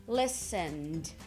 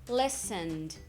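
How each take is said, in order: Both takes have the same delivery.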